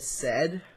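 The letter is pronounced 'zed'. "unless you're Canadian, then you said"

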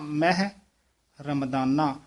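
A short pause comes after the first word. The speaker calls it right. "ਮਹਿ ਪਾਤੇ ਥੋੜਾ ਜਿਹਾ ਠਹਿਰਾ ਦੇ ਕੇ ਬੋਲਣਾ ਹੈ"

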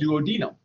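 It is said in a British pronunciation. This is how it is said in Canada and England. "in Canada and in England, they call it duodenum"

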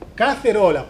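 The c is pronounced like a th. This is how it is said in Spain. "en España tiene un jeitinho de hablar... parece que tiene la lengua presta"

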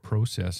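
It is pronounced in a Canadian way.

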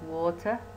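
It is said in a British accent. "in British"

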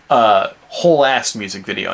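The words whole and ass are grouped together. It is a complete, full-blown music video. The speaker calls it right. "there should be a dash in whole ass music video. It should be between whole and ass"

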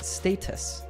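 The word is said with a British pronunciation. "This way of pronouncing this word is more common in British English"

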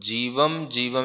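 The m sound ends the first word. The speaker calls it wrong. "जीवम जीवम ऐसे नहीं पढ़ना"

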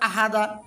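The syllables are run together in one go. "যদি একেবারে বলি"

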